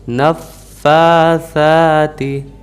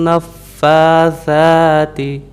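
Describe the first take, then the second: Both takes have the same delivery.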